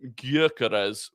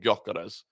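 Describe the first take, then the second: First: The first vowel is a rounded ö sound. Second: The first vowel is a plain o sound. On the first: The speaker calls it right. "I need to start calling him Gyökeres" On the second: The speaker calls it wrong. "rather than Gyökeres"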